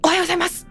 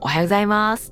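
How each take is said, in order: First: It is said tensely, with a clipped abrupt ending. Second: It is said casually, with a relaxed ending.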